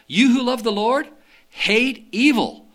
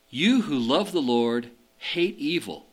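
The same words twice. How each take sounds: First: It is read with emphasis, like a command. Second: It is read flatly, like a plain description. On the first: It tells those who love the Lord to hate evil. The speaker calls it right. "Let me put the right emphasis in there" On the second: It describes people who love the Lord. The speaker calls it wrong. "I pronounced that wrong"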